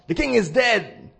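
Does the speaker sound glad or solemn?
glad. It is said in a glad, pleased tone. The speaker is pleased about the death. "If you say it wrong"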